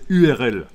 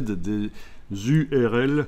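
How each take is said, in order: First: No z sound comes before the U. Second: A z sound links into the U. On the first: "Non, c'est U R L" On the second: "Ça commence par un Z"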